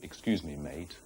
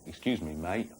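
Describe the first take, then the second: First: It is said in a standard English accent. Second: It is said in a London estuary accent. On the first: "instead of" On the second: "in the London way, we'll say"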